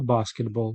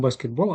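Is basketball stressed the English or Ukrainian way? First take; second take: English; Ukrainian. First: It has the English stress pattern. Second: It has the Ukrainian stress pattern. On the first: The speaker calls it right. "а баскетбол. Наголос міняється" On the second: The speaker calls it wrong. "як у нас теж, тільки не баскетбол"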